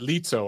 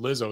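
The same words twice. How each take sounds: First: The name is said with Italian pronunciation. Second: The name is said with English pronunciation. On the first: The speaker calls it wrong. "in Italian, that's how you'd say that" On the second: The speaker calls it right. "I didn't know you pronounce it Lizzo"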